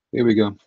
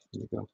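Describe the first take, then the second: First: Loud, punchy start; louder announce. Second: Quiet muttered. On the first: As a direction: kick it off with energy. Louder take. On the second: Quiet take before loud. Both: Real, not acted.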